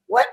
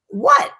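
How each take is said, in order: First: Said in the usual way. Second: High rising disbelief; a sudden high what in shock; startled. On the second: Retold or imitated. Retelling shock at the news.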